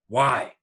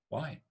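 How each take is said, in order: First: The word sounds angry. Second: The word sounds innocent and naive. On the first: "With anger" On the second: "Or with innocence"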